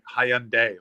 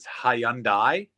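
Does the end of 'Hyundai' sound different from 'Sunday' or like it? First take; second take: like Sunday; different. First: The last part sounds like the end of Sunday. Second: The last part does not sound like Sunday. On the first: This is how Canadians say it. "only Canada pronounces it like Hyundai" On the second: This is how most of the world says it. "Everywhere else in the world pronounce it Hyundai"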